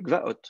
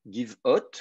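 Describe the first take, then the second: First: "gvaot" with g-v cluster, stressed final OT; absolute-state form. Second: "give hot" as giv-OT, short i kept; slow "give hot", two parts, giv then ot; construct-state form. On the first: Teacher shows student the absolute plural, "gvaot" said gva-OT. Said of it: "L'accent est ici". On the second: Teacher shows student the construct plural, "give hot" said slowly as giv-ot. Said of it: "sauf si c'est à l'état construit". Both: Shown as a demonstration.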